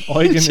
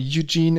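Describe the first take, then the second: First: The name is pronounced the German way. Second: The name is pronounced the English way. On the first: "Eugen in German" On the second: "Eugene in English"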